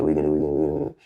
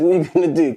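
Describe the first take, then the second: First: Much lower, steady dare; low challenge. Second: Loud, defiant shot back at him; loud challenge. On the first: Retelling facing down the taller man, low steady dare. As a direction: drop the voice and dare him. Squaring up again, retold. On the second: Squaring up to a taller man, loud defiant challenge. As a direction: throw the question in his face. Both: Retold or imitated.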